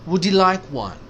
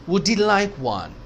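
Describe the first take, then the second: Both takes have the same delivery.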